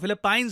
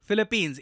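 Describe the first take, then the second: First: The last syllable is said like 'pines'. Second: The last syllable is said like 'peens'. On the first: The speaker calls it wrong. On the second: The speaker calls it right.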